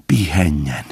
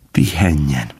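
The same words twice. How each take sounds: The two takes are said the same way.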